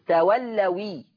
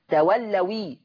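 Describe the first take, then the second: No difference in how they are said.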